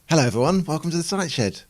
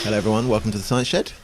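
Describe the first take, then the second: First: The greeting sounds forced and fake. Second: The greeting sounds flat and bored. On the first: "that sounds fake" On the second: "That sounded a little bit um, like I was a bit bored"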